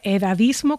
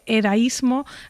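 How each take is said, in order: First: The second d is clearly pronounced. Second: The second d is dropped. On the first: The speaker calls it right. "Se dice edadismo con dos Ds" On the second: The speaker calls it wrong. "no se dice edaísmo"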